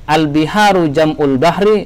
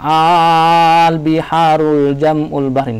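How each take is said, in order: First: The opening vowel is short and clipped. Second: The opening vowel is drawn out very long. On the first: "Salah kalau kita mengatakan" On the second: "jangan juga terlalu panjang ... enggak usah"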